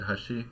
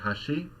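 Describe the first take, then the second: First: The pitch rises only slightly on the second syllable. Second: The pitch rises sharply on the second syllable. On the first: It means edge. "for edge she said hashi. Right, so it's a less dramatic rise in pitch" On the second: It means bridge. "for bridge she said hashi"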